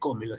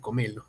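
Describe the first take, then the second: First: The stress falls on the first syllable. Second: The stress falls on a later syllable. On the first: This is how it is said in Peru. "en Argentina no se dice cómelo" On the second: This is how it is said in Argentina. "se dice comelo"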